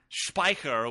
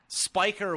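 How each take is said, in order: First: The name is said with a German pronunciation. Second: The name is said with an American pronunciation. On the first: The speaker calls it right. "Be the German, the proper German pronunciation" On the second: The speaker calls it wrong. "would be the total bastardized American version"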